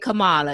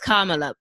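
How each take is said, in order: First: The first part does not sound like comma. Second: The first part sounds like the word comma. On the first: The speaker calls it wrong. "Don't say Kamala" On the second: The speaker calls it right. "It's Kamala. Okay, like a comma and la"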